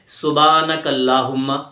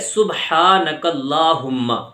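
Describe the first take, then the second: First: The phrase is said without the h sound. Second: The phrase is said with a breathy h sound. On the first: The speaker calls it wrong. "हम बोल देते हैं" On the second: The speaker calls it right. "तो पूरा लफ्ज है"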